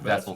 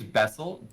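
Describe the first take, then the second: First: The name begins with a soft V sound. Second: The name begins with a hard B sound.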